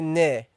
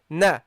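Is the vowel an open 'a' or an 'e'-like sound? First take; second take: e-like; open a. First: The vowel is fronted toward an 'e' sound. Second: The vowel is an open 'a' sound. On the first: The speaker calls it wrong. "you don't have to exaggerate. You don't say ne" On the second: The speaker calls it right. "you say na"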